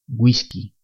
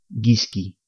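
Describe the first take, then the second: First: The word starts with a gw sound. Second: The word starts with a hard g. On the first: The speaker calls it right. "se pronuncian we y wi" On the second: The speaker calls it wrong. "Si no utilizamos la diéresis, al leer estas palabras diríamos"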